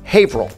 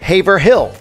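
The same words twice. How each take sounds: First: It is said the local Massachusetts way. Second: It is said as spelled, outsider style. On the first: The speaker calls it right. "it's Haverhill" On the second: The speaker calls it wrong.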